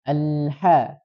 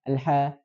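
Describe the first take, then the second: First: The lam sound flows on slightly. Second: The lam sound is cut off without flowing. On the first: The speaker calls it right. "Jadi cara bacanya" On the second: The speaker calls it wrong. "Jadi tidak"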